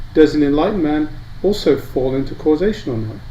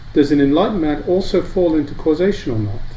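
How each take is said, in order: The two takes are said the same way.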